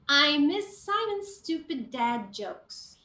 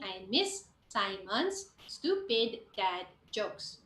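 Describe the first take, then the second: First: Matching end and start sounds are smoothly joined. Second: Matching end and start sounds are said separately. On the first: The speaker calls it right. "I will link it so that it will flow nicely" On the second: The speaker calls it wrong. "it sounds very choppy"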